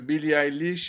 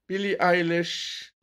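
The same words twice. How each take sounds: First: The name is said with French pronunciation. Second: The name is said with English pronunciation. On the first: "prononcer ces noms à la française" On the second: "le mec qui se la pète"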